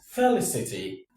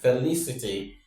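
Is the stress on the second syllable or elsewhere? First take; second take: elsewhere; second syllable. First: The stress is not on the second syllable. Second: The stress is on the second syllable. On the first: The speaker calls it wrong. "not felicity" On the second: The speaker calls it right. "the third syllable is what takes the stress"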